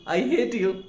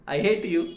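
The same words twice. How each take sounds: No difference in how they are said.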